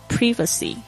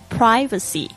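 First: The first vowel is a short 'i'. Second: The first vowel sounds like 'eye'. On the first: "英式发音呢通常会念privacy" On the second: "美式发音呢是念这个I 呢是发I 的这个声音"

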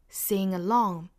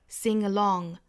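The two takes are said the same way.

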